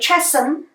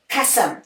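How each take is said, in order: First: The word begins with a ch sound. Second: The word begins with a k sound. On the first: The speaker calls it wrong. "we do not say chasm" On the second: The speaker calls it right. "but we say k, cat"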